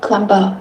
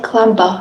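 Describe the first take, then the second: First: A b sound is pronounced at the end. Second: A b sound is pronounced at the end.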